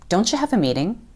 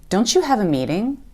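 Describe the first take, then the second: First: The t and y blend into a ch sound. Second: The same.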